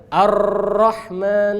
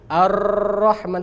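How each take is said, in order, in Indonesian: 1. R-nya digetar panjang. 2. R-nya digetar panjang.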